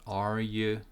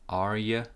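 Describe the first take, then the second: The two takes are said the same way.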